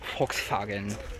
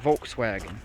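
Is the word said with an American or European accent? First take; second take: European; American. First: It is said with a European-style pronunciation. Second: It is said with an ordinary American pronunciation.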